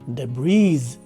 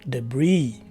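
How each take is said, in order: First: The word ends in a z sound. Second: The word ends in a vowel sound. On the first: It refers to several items. "the letter S at the end of the word is present and is pronounced as a letter Z" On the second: It refers to a single item. "the letter S at the end of the word is dropped"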